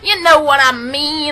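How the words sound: It is said in an exaggerated southern accent.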